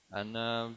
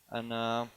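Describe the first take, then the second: No difference in how they are said.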